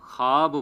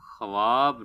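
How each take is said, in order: First: خواب as "khaab", the waw silent; correct pronunciation. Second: خواب as "khawaab", waw sounded; wrong pronunciation. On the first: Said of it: "تو خواب بولنا چاہیے". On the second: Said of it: "خواب نہیں بولنا چاہیے". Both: Shown as a demonstration.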